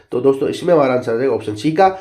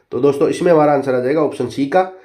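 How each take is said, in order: The two takes are said the same way.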